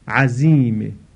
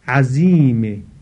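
No difference in how they are said.

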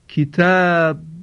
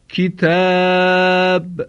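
First: The final b is released slowly without echo. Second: The final b is released with a bouncing echo. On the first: The speaker calls it wrong. "لبها رو به یک بار از هم جدا نمی کنم، بلکه با تأنی و آهسته از هم جدا می کنم" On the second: The speaker calls it right. "در حالی که قلقله اونها رو ظاهر کردم"

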